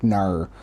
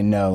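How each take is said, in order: First: "nar" for no, with an r-coloured Australian vowel. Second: Said in the usual way. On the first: Shown as a demonstration. American showing how Australians say no, "nar" with an Australian vowel. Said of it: "You guys do say no, like". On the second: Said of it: "is the no".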